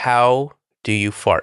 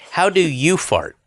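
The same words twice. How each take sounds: First: The word 'you' is not emphasized. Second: The word 'you' is emphasized.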